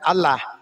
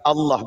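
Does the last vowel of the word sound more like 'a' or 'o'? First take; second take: a; o. First: The last vowel is a plain, light 'a'. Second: The last vowel is a dark, rounded 'o'-like sound. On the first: This is the everyday Indonesian way of saying the name. The speaker calls it wrong. "bukan Allah" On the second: This is the way Muslims say the name, as in Arabic. The speaker calls it right.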